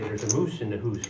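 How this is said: It is said in a mock Canadian accent. "they say"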